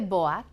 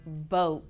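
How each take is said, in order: First: The vowel is split into two sounds, O then A. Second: The vowel is a single O sound. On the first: The speaker calls it wrong. "We don't say boat" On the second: The speaker calls it right. "we say boat"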